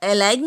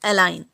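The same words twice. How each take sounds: First: A g sound is pronounced before the n. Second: No g sound is pronounced before the n. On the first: The speaker calls it wrong. "यहाँ पर अलाइन नहीं पढ़ेंगे" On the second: The speaker calls it right. "सभी में जी silent है"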